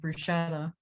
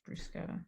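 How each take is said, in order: First: The middle consonant is a soft 'sh' sound. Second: The middle consonant is a hard 'k' sound. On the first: The speaker calls it wrong. "I've definitely been pronouncing it as bruschetta" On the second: The speaker calls it right. "It's a strong C H"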